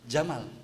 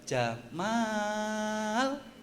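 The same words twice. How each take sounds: First: The vowel after the m is short. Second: The vowel after the m is drawn out long. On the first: It means a male camel. The speaker calls it wrong. "Jangan Jamal" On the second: It means a handsome man. The speaker calls it right. "Tapi kalau panjang, mimnya panjang pakai alif"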